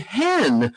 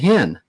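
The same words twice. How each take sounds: First: The vowel sounds like a short E. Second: The vowel sounds like a short I. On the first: This is the speaker's own usual way of saying it. "oh, you mean hen?" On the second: This is how locals in that region say it. "pronounced as if it had an I in the middle of it instead of an E"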